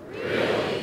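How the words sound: It is said with strong attitude.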